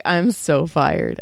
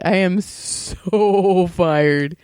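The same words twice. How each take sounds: First: Said in the usual way. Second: "so" stretched very long before "fired"; slow doom-laden line with a long "so"; drawn-out emphasis. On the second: Retold or imitated. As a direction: hold the word "so" for a long beat, slowly.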